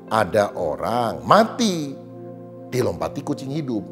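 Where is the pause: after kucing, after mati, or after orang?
after orang. A pause falls after the word orang. A person died from shock when a living cat jumped over them. "Matinya kaget karena dilompati kucing hidup gitu"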